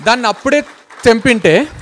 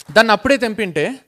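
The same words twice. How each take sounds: First: Loud, punched warning; god insisting loudly on అప్పుడే; loud emphatic. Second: Said in the usual way. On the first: Acted. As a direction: hit it hard and loud. God stressing the point.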